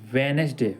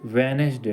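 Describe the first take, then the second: No difference in how they are said.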